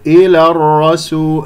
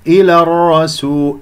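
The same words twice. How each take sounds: The two takes are said the same way.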